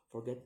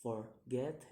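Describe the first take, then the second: First: Said in the usual way. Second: "forget" split in two, second syllable rising; second-syllable stress. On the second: Shown as a demonstration. Teacher giving an example, "forget" split and rising. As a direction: say "forget" in separate beats, lifting the last. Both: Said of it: "put on the second".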